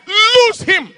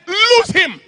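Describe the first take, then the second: First: Commanding shout. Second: Sharp high command to cast out; commanding shout. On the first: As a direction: cast it out with force. Repeated command to release. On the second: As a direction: bark it like an exorcist. Preacher commands demon in retold deliverance. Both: Retold or imitated.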